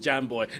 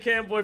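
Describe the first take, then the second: First: The name begins with a soft J sound. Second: The name begins with a hard K sound. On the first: The speaker calls it right. "it is Jam Boy" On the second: The speaker calls it wrong. "I've been saying Cam Boy for years too"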